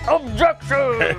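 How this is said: It is said in a deep voice.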